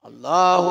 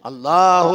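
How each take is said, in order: The two takes are said the same way.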